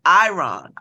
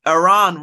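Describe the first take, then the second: First: Iran said EYE-ran, long I and flat A. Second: Iran said as uh-RAHN, first vowel reduced; wrong pronunciation. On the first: Vlogger repeats how the American said it. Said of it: "He said Iran". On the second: Vlogger mimics the reporter's mispronunciation. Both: Retold or imitated.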